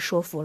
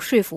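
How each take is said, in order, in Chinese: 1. 第一个音节读作 shuo。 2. 第一个音节读作 shui。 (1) "1985 年普通话易读词审音表当中已经念呆板和说服了" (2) "那为什么很多年轻人会读税服？"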